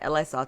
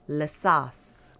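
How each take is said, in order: First: The first part is spelled out as two letters. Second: The first part is said as one syllable. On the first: The speaker calls it wrong. "is not L A sauce" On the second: The speaker calls it right. "it's La"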